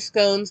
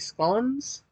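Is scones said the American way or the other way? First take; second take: American; other. First: Scones is said with the American pronunciation. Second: Scones is said with the non-American pronunciation. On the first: This is how the speaker says it. "that's the American pronunciation" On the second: This is how some other people say it. "There are people who say scones"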